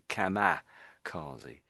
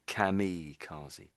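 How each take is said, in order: First: The second syllable has an 'a' vowel sound. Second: The second syllable has an 'i' vowel sound. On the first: This is how many people commonly say it. "Kama. I know it's an I there, but I, I think a lot of people actually say kamikaze" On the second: This is the technically correct form. "technically it's really kamikaze"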